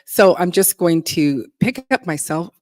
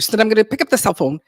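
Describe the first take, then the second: First: It is said at a normal pace. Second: It is said quickly, rushing the words.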